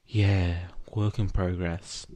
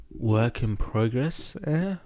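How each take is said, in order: First: "Yeah, work in progress" as a statement, without a rise; matter-of-fact "work in progress", settling at the end; confirming. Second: "Work in progress, eh?" drawn out slowly, rising to a high "eh?"; slow, questioning "Work in progress", rising at the end; dazed question. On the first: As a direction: confirm "work in progress" evenly in the usual pitch. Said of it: "Izuku confirmed". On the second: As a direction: stretch "progress" upward, then lift "eh?" higher. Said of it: "Egon asked as stars danced". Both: A narrator's reading.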